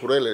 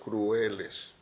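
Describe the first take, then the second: First: The word is said in two syllables. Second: The word is said in three syllables. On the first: The speaker calls it wrong. "no he dicho crueles" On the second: The speaker calls it right. "he dicho crueles"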